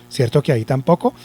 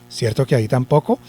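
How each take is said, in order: Both takes have the same delivery.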